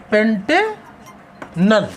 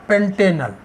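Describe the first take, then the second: First: Pantanal very drawn out, long pause before नल; slow dictation. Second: Said in the usual way. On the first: Shown as a demonstration. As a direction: split Pantanal into two slow parts, पेंटे, then नल. Teacher repeats name very slowly.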